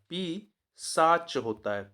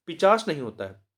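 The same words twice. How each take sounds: First: पी साच drawn out slowly, syllables split; teacher dictating the correct form पी साच slowly; slow emphatic demo. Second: Said in the usual way. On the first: Shown as a demonstration. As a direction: stretch out पी साच so the spelling is clear.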